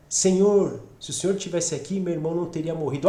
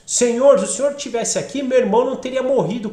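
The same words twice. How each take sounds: First: Prostrate lament. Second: Raised, pressing complaint to someone who should have come; as if calling Him to account; demanding reproach. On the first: Mary fallen at Jesus' feet, humbly lamenting. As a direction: lay the grief gently at His feet. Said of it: "Maria prostrou-se aos seus pés". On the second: Martha confronting Jesus over her brother's death, demanding. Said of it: "quase que meio que cobrando". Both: Acted.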